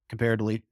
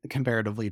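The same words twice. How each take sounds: First: Comparatively clipped to kum-PAIR-ly, middle syllables dropped; slurred comparatively. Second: Comparatively said in full, com-PAIR-a-tive-ly; careful comparatively. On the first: Lecturer stumbling over comparatively to students. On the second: Lecturer correcting herself with a full comparatively. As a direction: fix the word, saying every syllable of comparatively. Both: Real, not acted. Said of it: "comparatively to up north".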